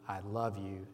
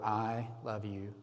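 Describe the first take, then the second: First: The word "love" carries the stress. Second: The word "I" carries the stress. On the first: "emphasizing each word" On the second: "emphasizing each word"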